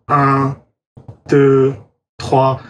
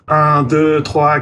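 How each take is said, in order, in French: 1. Les nombres sont comptés très lentement. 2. Les nombres sont comptés très rapidement. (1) "ou trop lentement" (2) "je pourrais compter trop vite"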